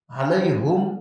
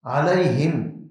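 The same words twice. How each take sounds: First: علیہم said as alaihum, ha with u; علیہم with rising end, ha with u; with damma on ha. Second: علیہم said as alaihim, ha with i; slow علیہم, ha with kasra. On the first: Teacher demonstrating ha with damma to students. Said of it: "ہا کے پیش سے". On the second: Teacher demonstrating ha with kasra to students. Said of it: "ہا کے زیر سے ہے". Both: Shown as a demonstration.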